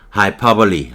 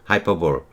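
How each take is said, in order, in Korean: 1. 이 단어는 'ee' 소리로 끝나요. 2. 이 단어는 'bowl' 소리로 끝나요. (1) "하이퍼블리 이렇게 발음이 되는데" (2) "하이퍼볼 아니고"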